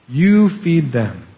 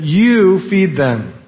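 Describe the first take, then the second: First: Said in the usual way. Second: Each word drawn out slowly, weight on you; slow emphatic command. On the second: Retold or imitated. Preacher quoting Jesus to disciples, slow emphatic command.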